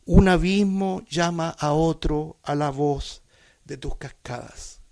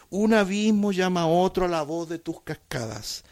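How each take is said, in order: First: "Un abismo llama a otro a la voz de tus cascadas" said slowly, each word weighted; slow, highlighted reading of "Un abismo llama a otro"; emphasized phrase. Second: Said in the usual way. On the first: Shown as a demonstration. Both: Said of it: "yo quiero resaltarla".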